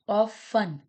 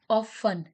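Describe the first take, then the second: Both takes have the same delivery.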